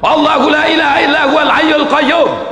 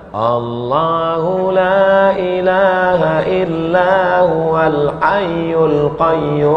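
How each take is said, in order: First: It is recited loudly and forcefully. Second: It is recited softly and quietly.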